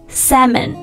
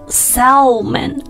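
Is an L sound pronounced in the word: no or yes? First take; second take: no; yes. First: No L sound is pronounced in the word. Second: An L sound is pronounced in the word. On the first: The speaker calls it right. "而读成salmon. 就是这个L is silent" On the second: The speaker calls it wrong. "它不读salmon"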